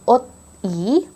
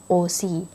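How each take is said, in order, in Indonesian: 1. Bunyi t tetap terpisah dari vokal. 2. Bunyi s menyambung ke vokal setelahnya. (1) "Jadi bukannya ot I" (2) "tapi jadinya O-si"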